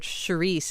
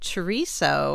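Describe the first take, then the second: First: It is said the Rhode Island Portuguese way. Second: It is said in the standard American way.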